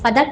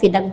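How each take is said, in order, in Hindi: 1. पहला स्वर 'a' की आवाज़ है। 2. पहला स्वर 'i' की आवाज़ है। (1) "लेकिन असल है फदक" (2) "दोनों तरीके से पढ़ा जा सकता है"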